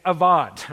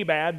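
First: The middle consonant is a v sound. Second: The middle consonant is a b sound. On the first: The speaker calls it right. "It's avad" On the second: The speaker calls it wrong. "if you were in Oklahoma, I guess you'd say abad, but it's not abad"

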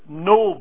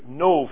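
First: The word ends with a b sound. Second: The word ends with a v sound. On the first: This is the usual English form of the name. "a place called Nob" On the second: This is the original Hebrew form of the name. "as it is in the Hebrew, Nob. ... like N-O-V"

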